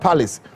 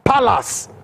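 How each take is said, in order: First: The word is said with a standard accent. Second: The word is said with a Nigerian accent. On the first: "Not palace" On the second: "Let me call it the Nigerian way"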